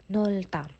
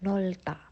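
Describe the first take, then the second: First: The first syllable ends with an L. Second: The same.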